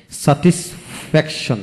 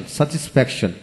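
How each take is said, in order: First: satisfaction split with gaps; syllable by syllable. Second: Said in the usual way. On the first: Shown as a demonstration. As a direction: pause between the parts of satisfaction. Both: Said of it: "যে word তিনের অধিক syllable থাকে".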